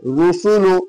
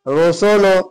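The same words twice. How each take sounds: First: The vowels are a short, clear u sound. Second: The vowels are drawn toward an o sound. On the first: The speaker calls it right. "रोसोलो मारूफ आवाज है।" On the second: The speaker calls it wrong. "रोसोलो नहीं, रोसोलो क्या है? गलत है, मजहूल आवाज है।"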